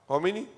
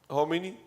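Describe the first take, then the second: The two takes are said the same way.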